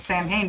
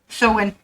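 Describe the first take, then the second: First: It sounds like 'Sam-hain', as spelled. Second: It sounds like 'So-when', without an h. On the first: The speaker calls it wrong. "I know I said it wrong again" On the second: The speaker calls it right. "That's the proper pronunciation for it"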